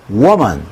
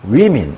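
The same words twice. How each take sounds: First: 'woman' slowly, with a clear o sound; drawn-out teacher 'woman'; slow singular demo. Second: 'women' slowly as wimin, rising at the end; drawn-out teacher 'women' with i vowels; slow plural demo. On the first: ('woman' 천천히 오 소리로) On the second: ('women' 위민으로 천천히) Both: Shown as a demonstration. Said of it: "발음은 woman".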